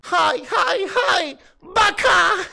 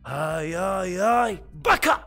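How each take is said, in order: First: It is said louder and more forcefully. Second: It is said with normal force.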